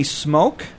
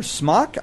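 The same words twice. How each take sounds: First: "Smoak" with a long O, like smoke; unsure name pronunciation. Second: "Smock" with a short open vowel, like the garment; alternative name pronunciation. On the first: Scholar naming an author, tentative long-O "Smoak". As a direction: say "Smoak" to rhyme with oak. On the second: Scholar second-guessing an author's name, short-vowel "Smock". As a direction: offer "Smock" softly, rhyming with lock. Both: Real, not acted. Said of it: "I don't know how to say his name".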